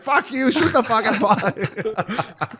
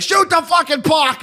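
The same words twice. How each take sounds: First: Imitating the fan telling off the guy who asked him to stop swearing; defiant fan. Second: Mock fan yell, much higher and slow; imitating a fan screaming at the Leafs from the seats. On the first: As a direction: drag it out defiantly at the guy in front. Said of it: "He's like". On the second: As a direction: bellow it at the ice like an angry fan. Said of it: "him yelling and screaming".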